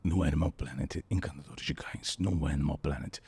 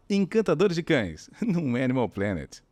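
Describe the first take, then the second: First: Lower, soft, almost whispered; low breathy channel promo. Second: Higher, slower caring voice; sweet high promo. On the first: Retold or imitated. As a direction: intimate documentary promo. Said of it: "eu queria mais ou menos assim". (chamada grave e sussurrada) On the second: Shown as a demonstration. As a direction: say it like talking to a puppy. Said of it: "a gente fala com vozinha assim". (chamada com vozinha carinhosa)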